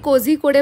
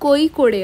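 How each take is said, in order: First: The name is said as Kozhikode. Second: The name is said as Koikode. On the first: This is how outsiders usually say it. "आपण जरी कोझिकोडे म्हणत असलो" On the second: This is how local people say it. "स्थानिक लोक कोईकोडे असा उच्चार करतात"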